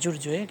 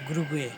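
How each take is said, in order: First: The name starts with a soft J sound. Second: The name starts with a hard G sound. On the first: This is how the locals say it. "ওদের উচ্চারণে" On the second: This is how Bengali speakers would read it. "আমাদের উচ্চারণ আসে"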